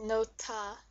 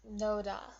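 First: The middle consonant is a hard T sound. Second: The middle consonant is a soft D sound. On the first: The speaker calls it right. "It's nota because this H sound makes this into like a T sound" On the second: The speaker calls it wrong. "not noda"

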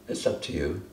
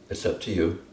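Both takes have the same delivery.

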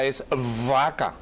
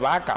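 First: The v is made with lips and teeth. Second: The v sounds like a b. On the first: This is how the word is supposed to be said. "si vamos a decir vaca, es vaca" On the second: This is how people actually say it. "la gente dice vaca"

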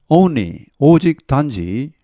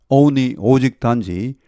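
Both takes have the same delivery.

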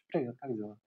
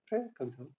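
First: The greeting is said smoothly and fluidly. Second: The greeting is said lightly and airily. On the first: The surrounding space feels like water. "А теперь пространство сделано из воды. Тогда вы можете это сделать совершенно иначе" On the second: The surrounding space feels like fluttering lightness. "пространство сделано из легкости, то есть у вас бабочки в теле"

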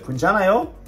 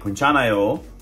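First: The voice rises at the end. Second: The voice falls at the end.

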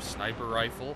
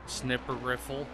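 First: The first vowel is long, like in 'snipe'. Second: The first vowel is short, like in 'snip'. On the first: "instead of sniper rifle" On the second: "I say snipper rifle"

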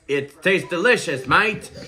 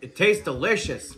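First: It is said in an Australian accent. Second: It is said in his ordinary accent.

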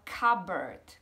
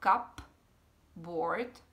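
First: The P in the middle is silent. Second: The P in the middle is pronounced. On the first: The speaker calls it right. "ať to P se tam nečte, je to takzvané tiché písmeno" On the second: The speaker calls it wrong. "Ne třeba cupboard, jak by se nám třeba z toho zdálo"

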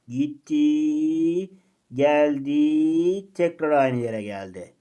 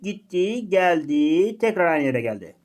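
First: The phrase is spoken in a slowed-down way. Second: The phrase is spoken at a normal pace. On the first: Time passes more slowly near light speed. "ışık hızına yakın hızlarda bu şu şekilde olacak bak dikkat et. Ses tonuma falan dikkat et" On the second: Time passes normally. "Birincisine ne demiştik?"

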